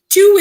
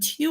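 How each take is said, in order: First: The word is said in a full, strong form. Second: The word is said in a reduced, light form. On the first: It is the number, as in two brothers. "Two is much stronger" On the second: It is the preposition, as in have to talk. "two is very light"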